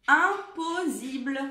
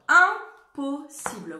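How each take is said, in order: First: Impossible with a buzzing z in the middle, said louder and slowly; wrong pronunciation. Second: Impossible with a clear hissing s sound; correct pronunciation. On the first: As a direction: demonstrate the mistake: impossible with a z sound. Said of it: "Si je n'en avais qu'un". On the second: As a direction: say impossible with a sharp s. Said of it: "Le un de impossible". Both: Shown as a demonstration.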